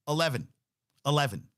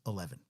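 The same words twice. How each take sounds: First: Eleven. Eleven. both hit louder and higher; stressed repeat. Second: Said in the usual way. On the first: Shown as a demonstration. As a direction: hammer the number Eleven home twice. Repeating the Jets' touchdown count.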